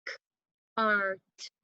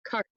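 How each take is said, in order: First: "K-R-T" as separate k, ar, t sounds; tapped out sounds. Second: Said in the usual way. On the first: Shown as a demonstration. Teacher repeating the tapping for pupils, segmented "K-R-T". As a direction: tap "K-R-T" sound by sound, pausing between. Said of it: "One more time". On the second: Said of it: "let's tap it out".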